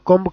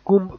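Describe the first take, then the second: First: The word ends with a b sound. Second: The word ends without a b sound. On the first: The speaker calls it wrong. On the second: The speaker calls it right.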